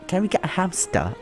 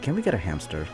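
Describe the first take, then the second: First: It is read in a British accent. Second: It is read in an American accent. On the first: "Should I do a British accent?" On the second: "Let's pretend they're American for now"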